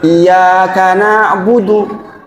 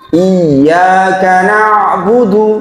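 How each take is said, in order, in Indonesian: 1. Bunyi y pendek dan tunggal. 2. Bunyi y ditahan panjang dan dobel. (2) "pakai tasdid"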